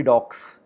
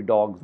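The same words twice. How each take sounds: First: "dogs" ended in a hissed s, like "docks"; wrong S ending. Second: "dogs" ended in a voiced z; Z ending. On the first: Teacher showing what it could not be, hissed S. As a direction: say "dogs" with a long voiceless s at the end. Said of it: "it could not be dogs". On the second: Teacher showing the correct plural, Z sound. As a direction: say "dogs" with a buzzed z at the end. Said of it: "we give them the za sound". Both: Shown as a demonstration.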